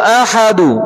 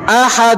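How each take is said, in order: First: The word ends with an added short u vowel. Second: The word ends on the final consonant, no vowel.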